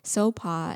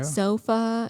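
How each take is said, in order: First: The middle consonant is a plain P sound. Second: The middle consonant is an F sound. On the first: The speaker calls it right. "the H is silent" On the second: The speaker calls it wrong. "They were just like"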